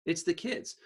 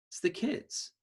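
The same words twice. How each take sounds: First: Said in the usual way. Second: Quiet, a little higher, pointed; soft emphasis. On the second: Shown as a demonstration. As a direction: lean in softly on it.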